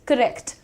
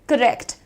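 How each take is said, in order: Both takes have the same delivery.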